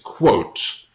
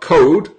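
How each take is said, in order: First: The word ends with a clear T sound. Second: The word ends with a D sound. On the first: The speaker calls it right. "the pronunciation is quote" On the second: The speaker calls it wrong. "not code"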